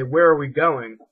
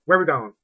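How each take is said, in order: First: Repeating the question louder; loud asking. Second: Words run together, fast and loud; all at once like one word; one syllable. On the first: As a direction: ask it out loud, word by word. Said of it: "I would say". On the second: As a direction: blur it into a single syllable. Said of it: "it sounded like one syllable". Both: Retold or imitated.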